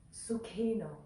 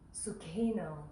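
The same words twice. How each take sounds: The two takes are said the same way.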